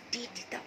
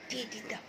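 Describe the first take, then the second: No difference in how they are said.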